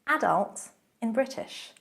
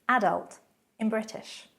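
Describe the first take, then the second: The two takes are said the same way.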